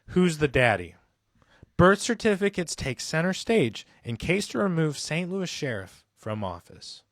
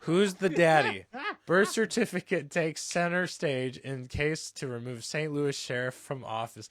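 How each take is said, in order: First: It is read in a calm NPR-announcer voice. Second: It is read in his normal casual voice.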